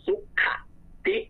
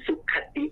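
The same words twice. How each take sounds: First: ติ in สุข ติ jumped sharply high at the end; wrong high tone. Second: ติ in สุขติ kept low and level; correct low tone. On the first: Teacher demonstrating the wrong tone, ติ shot up high. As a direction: say ติ in สุข ติ with a steep high rising tone. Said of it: "เสียงตกคอเนาะเดี๋ยวต้องออกเป็นสุข". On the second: Teacher demonstrating the correct tone, สุขติ low and steady. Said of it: "เสียงมันจะเสียงต่ำ ตกคอควาย". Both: Shown as a demonstration.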